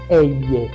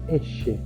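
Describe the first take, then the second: First: The ll has the widespread Spanish sound. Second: The ll has the Rioplatense Spanish sound. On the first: This is how most Spanish speakers say it. "Muchos la pronuncian elle, la amplia mayoría de la población del mundo hispano" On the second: This is how it is said in Argentina. "en el español rioplatense como el de Argentina, nosotros la pronunciamos elle"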